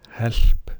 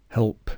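First: The L is light and unvoiced. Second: The L is dark and voiced. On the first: The speaker calls it wrong. "And not help" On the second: The speaker calls it right. "but help"

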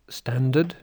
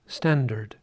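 First: The second syllable has no r sound. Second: The second syllable has an r sound. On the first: This is a British pronunciation. "I say standard" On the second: This is an American pronunciation. "an American would say, would put the R in"

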